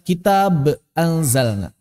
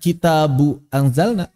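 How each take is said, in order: First: The first word ends on a bare b. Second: The first word ends in u without n. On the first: "kita tidak baca kitab anzalna" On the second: "bukan kitabu anzalna"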